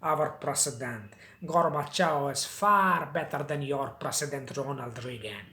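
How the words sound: It is spoken with a Russian accent. "Russian लोग हैं, वो मैंने मूवीज़ में देखा कुछ इस तरीके से बोलते थे"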